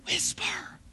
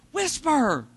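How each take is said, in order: First: True hushed whisper, no voice; whispered instruction to a friend. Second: Said in the usual way. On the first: Retold or imitated. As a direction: demonstrate a proper whisper. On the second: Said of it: "I was incapable of whispering".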